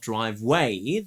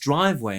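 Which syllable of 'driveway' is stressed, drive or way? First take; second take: way; drive. First: The stress is on the second syllable. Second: The stress is on the first syllable. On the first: The speaker calls it wrong. "puts unnecessary stress on the way" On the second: The speaker calls it right. "The word is driveway"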